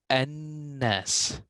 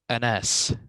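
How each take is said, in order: First: The n sound is held and doubled. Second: The n sound is short and single. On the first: The speaker calls it right. "I say annas" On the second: The speaker calls it wrong. "I don't I don't say anas"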